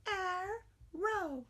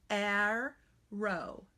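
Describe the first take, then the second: First: Put-on high childlike arrow; student voice. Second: Arrow said slowly, both syllables clear; careful syllables. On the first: Teacher plays the student, a high childlike arrow. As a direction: answer arrow like a young pupil. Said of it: "You say it". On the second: Teacher says arrow slowly so students hear the syllables. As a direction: stretch arrow into ar-row. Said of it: "say the word in syllables very carefully". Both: Shown as a demonstration.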